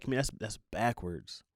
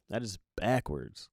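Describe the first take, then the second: First: Said in the usual way. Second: "That" leaned on, slow and deliberate; stress on That. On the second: Shown as a demonstration. Insisting to listeners that it's backwards, slow emphasis. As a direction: land "That is backwards" slowly, hitting "That".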